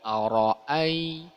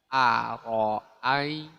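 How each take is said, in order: First: The first vowel is said with rounded lips. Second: The first vowel is said with unrounded lips. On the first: The speaker calls it wrong. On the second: The speaker calls it right.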